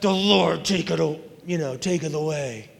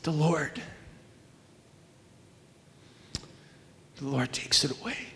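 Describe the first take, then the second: First: It is said in an angry, bitter tone. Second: It is said in a calm, reverent tone. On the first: The loss is met with resentment toward God. The speaker calls it wrong. "He didn't say that in an angry way" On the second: The loss is accepted as coming from God. The speaker calls it right. "He said it with a heart of worship"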